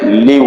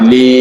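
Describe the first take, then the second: First: The vowel is kept short. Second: The vowel is held long. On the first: It means for someone else. The speaker calls it wrong. "Kalau tidak dipanjangkan" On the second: It means for me. The speaker calls it right. "karena ada huruf ya menjadi panjang"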